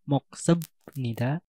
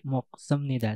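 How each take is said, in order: First: The ending is said with a 'b' sound. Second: The ending is said with an 'm' sound. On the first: The speaker calls it wrong. "pengucapannya bukan mok semnida" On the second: The speaker calls it right. "akan tapi mok semnida, sama seperti kamsahamnida"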